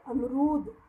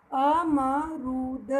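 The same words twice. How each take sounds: First: Said in the usual way. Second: अमरूद drawn out very slowly, each syllable apart; teacher stretching a word for pupils; slow modelled word. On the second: Shown as a demonstration. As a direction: stretch अमरूद so the long ऊ is heard. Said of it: "र को बड़ा ऊ".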